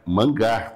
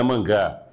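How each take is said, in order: First: "mangar" with the final r sounded, stress on the last syllable; mangar, not mangá. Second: "mangá" said like the comic word, open final a; the wrong reading "mangá"; wrong form mangá. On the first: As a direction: say "mangar" as a verb, ending in -ar. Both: Shown as a demonstration. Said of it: "Não é mangá".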